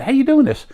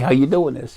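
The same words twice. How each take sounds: First: It sounds excited and eager. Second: It sounds annoyed and impatient.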